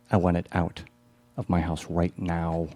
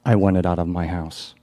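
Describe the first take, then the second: First: Slow, deliberate, word by word; slow firm repeat. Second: Loud, firm, angry insistence; angry demand. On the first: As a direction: hammer the demand home slowly. Repeated demand in the play. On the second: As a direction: lay down the law to him. Acted demand in the play. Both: Acted.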